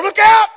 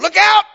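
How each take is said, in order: First: Even higher, louder cry; a second voice shouting the warning; yelled warning. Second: High, loud shout of alert; yelled warning. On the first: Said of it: "someone else over here yelling". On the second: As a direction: call out danger to a friend. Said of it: "somebody over here yelling". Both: Retold or imitated.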